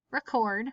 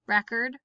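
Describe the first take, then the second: First: Record as ree-CORD, falling; stress on second syllable. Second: Record as REK-erd; stress on first syllable. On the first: Teacher reading word list aloud, stress on second syllable. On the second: Teacher reading word list aloud, stress on first syllable. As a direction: hit the Rec in Record. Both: Shown as a demonstration. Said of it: "both of the different pronunciations".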